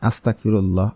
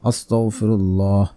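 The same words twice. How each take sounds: First: The word is articulated loosely and carelessly. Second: The word is articulated fully and carefully. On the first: The speaker calls it wrong. "এভাবে পড়বেন না" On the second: The speaker calls it right. "এভাবে পড়বেন, উচ্চারণ ঠিক রেখে"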